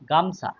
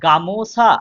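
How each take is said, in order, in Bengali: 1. শব্দটি মাঝের স্বর ছাড়া উচ্চারিত হয়। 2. শব্দটি মাঝের স্বরসহ উচ্চারিত হয়। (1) "এই ওকারটা লোপ পেয়েছে" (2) "মূল শব্দ ছিল কি গামোসা"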